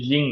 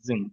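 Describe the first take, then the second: First: The word begins with a j sound. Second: The word begins with a buzzing z sound. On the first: The speaker calls it wrong. "জিং না" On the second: The speaker calls it right. "এই জেড সাউন্ডটা শিখবেন"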